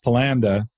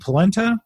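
First: The word ends with a 'nda' sound. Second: The word ends with a 'nta' sound. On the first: This is the family's home pronunciation. The speaker calls it wrong. "that's how the family pronounced it" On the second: This is the standard pronunciation. The speaker calls it right. "you mean polenta?"

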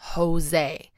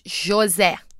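First: The name begins without a ch-like sound. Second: The name begins with a ch-like sound. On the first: The speaker calls it wrong. "not Jose" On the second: The speaker calls it right. "we pronounce it with the ch"

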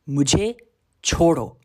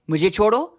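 First: It is said firmly at moderate strength. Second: It is said with more force and loudness. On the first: A clear request to be left alone. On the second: A stronger demand that the person really backs off. "with a little bit more force"

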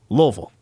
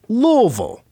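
First: The name is pronounced lightly and reduced. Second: The name is pronounced fully and strongly. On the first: The speaker calls it right. "That's the way they like it to be pronounced" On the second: The speaker calls it wrong. "You're doing too much. It's not that strong of a pronunciation"

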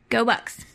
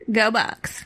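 First: It is said flatly with little energy. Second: It is said with more energy and punch.

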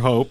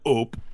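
First: The name is said in a plain accent. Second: The name is said in a Quebec French accent.

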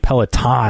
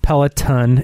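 First: The last syllable is a full, hard 'ton'. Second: The last syllable rhymes with 'fun'. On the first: The speaker calls it wrong. "I've been putting that like T-O-N, but like the hard ton" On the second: The speaker calls it right. "Peloton is fun"

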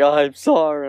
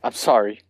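First: It is said with exaggerated, overdone feeling. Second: It is said offhandedly, without much feeling.

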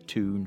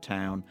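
First: The vowel is an oo sound. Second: The vowel is an ow sound. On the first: This is how it is said in Newcastle. "They say toon for town" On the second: This is the speaker's own pronunciation. "what for me is an ow sound"

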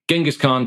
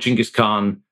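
First: The name is said in its common, familiar form. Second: The name is said in its scholarly form. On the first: This is the form most people recognize. "yeah, Genghis Khan" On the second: This is the form scholars consider proper. "Chinggis Khan is how most scholars say it properly"

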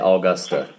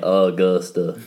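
First: It is said in an Australian accent. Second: It is said in an American accent.

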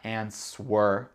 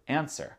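First: The W sound is pronounced after the N. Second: The W sound is silent after the N. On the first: The speaker calls it wrong. "c'est pas answer, ça c'est trop dur" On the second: The speaker calls it right. "Le W n'est pas prononcé"

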